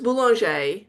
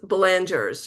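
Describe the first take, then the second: First: The name is pronounced in a French way. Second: The name is pronounced in an English way. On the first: The speaker calls it right. "so it's Boulanger" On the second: The speaker calls it wrong. "my parents used to call us Belangers"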